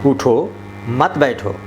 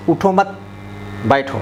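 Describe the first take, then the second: First: Slow "उठो", clear break, then "मत बैठो"; pause after उठो. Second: Group "उठो मत" together, pause before "बैठो"; pause after मत. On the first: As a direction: hold a comma after "उठो" before "मत बैठो". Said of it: "अल्प विराम लगा दिए". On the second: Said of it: "यहाँ लगा देते हैं". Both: Shown as a demonstration.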